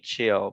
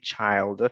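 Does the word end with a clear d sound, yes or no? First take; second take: no; yes. First: The word ends without a d sound. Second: The word ends with a d sound. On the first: The speaker calls it wrong. "We do not say chill" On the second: The speaker calls it right. "we say child"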